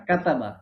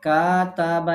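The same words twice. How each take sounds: First: কাতাবা with short, quick vowels; কাতাবা said fast, each vowel kept short; quick correct way. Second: Slow, stretched কাতাবা with long vowels; কাতাবা stretched slowly, as a teacher shows the error; wrong drawn-out way. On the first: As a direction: say কাতাবা briskly and cleanly. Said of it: "দ্রুত হবে". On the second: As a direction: drag out কাতাবা to show the mistake. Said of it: "এমন না". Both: Shown as a demonstration.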